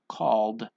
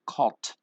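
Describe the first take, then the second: First: The word ends in a d sound. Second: The word ends in a t sound. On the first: The speaker calls it right. "We just have that D sound" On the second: The speaker calls it wrong. "we don't say calt"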